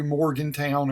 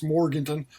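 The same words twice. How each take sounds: First: "Morgantown" said with a full "town" ending. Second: "Morganton" with a short, unstressed "tun" ending; local pronunciation. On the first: Vlogger reading a viewer's email, "Morgantown" with a town ending. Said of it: "It's really, it's Morganton". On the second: Local correcting a viewer's town name, "Morganton" ending in "tun". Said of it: "Morgantown's fine. You can call it that". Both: Shown as a demonstration.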